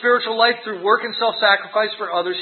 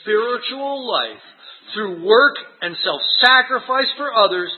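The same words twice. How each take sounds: First: It is read plainly without added emphasis. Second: It is read with strong added emphasis.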